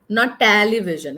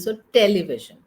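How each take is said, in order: First: The second syllable sounds like 'ta'. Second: The second syllable sounds like 'te'. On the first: The speaker calls it wrong. "It's not T A" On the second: The speaker calls it right. "It is T E"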